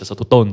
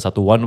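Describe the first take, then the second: First: The name is read ending in 'tone'. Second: The name is read ending in 'one'. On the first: The speaker calls it right. "cuman yang benar adalah satu tone" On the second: The speaker calls it wrong. "lo bisa baca satu one"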